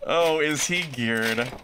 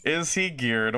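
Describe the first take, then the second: First: Sarcastic drawn out question. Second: Said in the usual way. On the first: Acted. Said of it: "repeats the question sarcastically". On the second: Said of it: "repeats the question".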